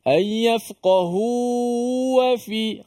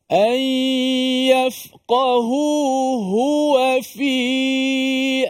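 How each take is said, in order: First: The second 'hu' sound is swallowed into the vowel. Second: The second 'hu' sound is strong and clearly heard. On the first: The speaker calls it wrong. "antara kesalahan yang mudah berlaku" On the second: The speaker calls it right. "Kuatkan dia"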